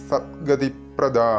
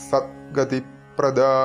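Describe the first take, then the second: Both takes have the same delivery.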